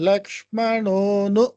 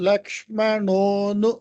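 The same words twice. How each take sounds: The two takes are said the same way.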